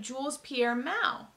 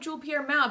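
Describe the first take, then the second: First: The S at the end of Jules is pronounced. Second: The S at the end of Jules is silent. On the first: "They started pronouncing it like" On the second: "I always thought the S was silent"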